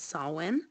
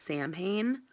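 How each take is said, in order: First: The word is pronounced the traditional Celtic way. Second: The word is pronounced the way it is spelled. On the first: The speaker calls it right. "the proper um, Celtic pronunciation" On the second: The speaker calls it wrong. "some people mispronounce it"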